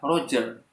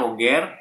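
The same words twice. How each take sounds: First: The name is said with English sounds. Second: The name is said with Indonesian sounds. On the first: "lafaz dari Inggrisnya adalah Roger" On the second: "lafaz Indonesianya Roger"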